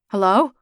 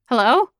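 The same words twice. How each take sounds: First: It is said in a low voice. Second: It is said in a shrill screech.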